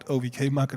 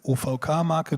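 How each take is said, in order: First: The letters are named with English letter sounds. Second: The letters are named with German letter sounds. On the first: "is probably right. I've never said it like that" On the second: "in German"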